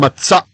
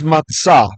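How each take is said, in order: First: The word ends with a glottal stop. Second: The word ends on an open vowel.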